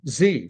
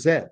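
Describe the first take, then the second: First: The letter is named the American way. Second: The letter is named the Canadian way. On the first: "even a lot of Canadians say Z" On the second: "I say from A to Z because I'm Canadian"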